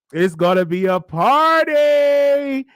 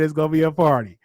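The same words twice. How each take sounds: First: Slow, higher, louder celebratory shout; party shout. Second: Said in the usual way. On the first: Real, not acted. Host hyping his audience about a win, slow shout. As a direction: hype it up like throwing a party.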